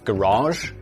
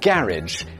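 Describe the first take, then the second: First: It is said in a posh accent. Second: It is said in a plain accent.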